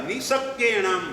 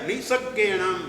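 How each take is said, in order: Both takes have the same delivery.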